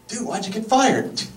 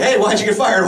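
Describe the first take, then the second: First: High mock voice asking why; fired guy impression. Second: Mock friend asking. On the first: Asking a fired friend, pitched high and mocking. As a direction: toss it off high like a curious buddy. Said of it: "Here's my impression of anyone". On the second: Friends asking a fired guy, high and teasing. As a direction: ask it brightly, half-teasing. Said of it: "So we're like".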